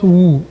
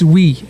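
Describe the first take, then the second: First: The first syllable has an 'oo' vowel. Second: The first syllable has a short 'ih' vowel. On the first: The speaker calls it wrong. "It's not woo" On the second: The speaker calls it right. "it's we"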